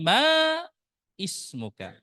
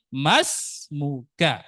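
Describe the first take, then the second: First: The starting vowel of the second word is sounded. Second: The words are joined with no starting vowel. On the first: The speaker calls it wrong. "Bukan ma ismuka" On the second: The speaker calls it right. "Langsung ke sini"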